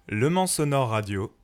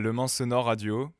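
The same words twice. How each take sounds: First: It is read with lively, upbeat energy. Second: It is read flatly, with no joy. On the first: The speaker calls it right. "Elle est parfaite" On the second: The speaker calls it wrong. "zéro joie"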